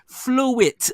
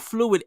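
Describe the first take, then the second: First: The word ends with a T sound. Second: The word ends with a D sound. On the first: The speaker calls it right. "Fluid with a T" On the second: The speaker calls it wrong. "Not fluid, everybody, with a D"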